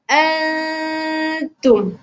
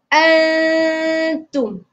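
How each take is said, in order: No difference in how they are said.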